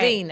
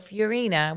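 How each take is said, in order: First: The name is pronounced with an Italian accent. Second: The name is pronounced with an American accent. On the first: The speaker calls it wrong. "not Fiorina" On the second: The speaker calls it right. "we have to say it the American way"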